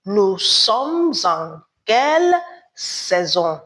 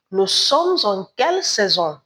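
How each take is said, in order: First: "Nous sommes en quelle saison?" said slowly, each word spaced; slow it down so the class can repeat "Nous sommes en quelle saison?"; slowed teacher demo for repetition; slow model repeat. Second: "Nous sommes en quelle saison?" said at normal pace in careful teacher French; plain model French question; French model phrase. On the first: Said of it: "Répétez". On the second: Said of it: "we say". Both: Shown as a demonstration.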